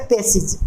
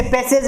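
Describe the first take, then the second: First: पैसेज said correctly as /pesidʒ/; पैसेज ending in /idʒ/; correct pronunciation. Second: पैसेज said wrongly with /pesedʒ/; पैसेज ending in /edʒ/, the wrong way; wrong pronunciation. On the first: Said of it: "सही होता है". (पैसेज का सही उच्चारण /pesidʒ/) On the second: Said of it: "इसे पैसेज नहीं बोलना है". (पैसेज का गलत उच्चारण /pesedʒ/) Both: Shown as a demonstration.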